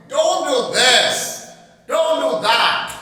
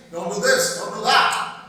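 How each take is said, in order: First: Slow, louder mock scolding; a demo of a mother scolding her daughter. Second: Said in the usual way. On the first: Shown as a demonstration. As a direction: nag her like a cross mother. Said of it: "She is scolding her". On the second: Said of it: "See the exclamation mark?".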